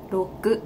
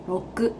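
Both takes have the same delivery.

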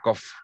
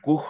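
First: The word ends with an F sound. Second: The word ends without an F sound. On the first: The speaker calls it right. "Se suena como F, exactamente" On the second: The speaker calls it wrong. "Nunca es cough o cough"

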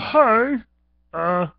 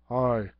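First: It is said in a snooty put-on voice. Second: It is said in a plain ordinary voice. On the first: "he's kind of snooty" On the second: "instead I do just a regular"

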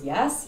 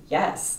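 First: The voice rises at the end, like a question. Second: The voice falls at the end, like a statement. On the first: It is asked as a question. "it goes from a question" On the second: It is a firm agreement. "to being like, yes"

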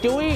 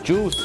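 First: It has a short u vowel and ends in y. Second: It has a long oo vowel and ends in s. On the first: The speaker calls it wrong. "ไม่ใช่จุ้ย" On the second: The speaker calls it right. "ต้องออกเสียงสระอู"

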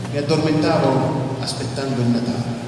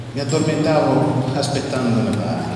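Both takes have the same delivery.

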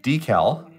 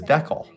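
First: It uses the standard, non-local pronunciation. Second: It uses the local regional pronunciation. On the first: This is how it is said elsewhere. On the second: This is how people in the area say it.

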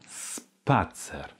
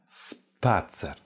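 No difference in how they are said.

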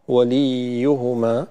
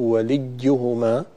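First: The i before the y is drawn out long. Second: The doubled y sounds close to a j. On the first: "بالغنا في كسرة اللام فتحولت إلى ياء مدية" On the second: "كأنها وسط بين الياء والجيم"

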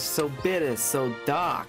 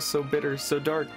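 First: It is said in a put-on character voice. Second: It is said in the speaker's normal voice.

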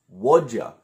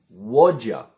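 No difference in how they are said.

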